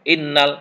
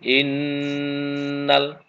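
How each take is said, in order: First: The doubled n gets only a short nasal hum. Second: The doubled n is held with a long nasal hum. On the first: The speaker calls it wrong. "enggak boleh innal. Nah, itu kurang" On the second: The speaker calls it right. "Mendengung yang banget"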